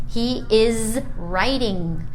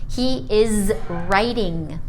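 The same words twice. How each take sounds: No difference in how they are said.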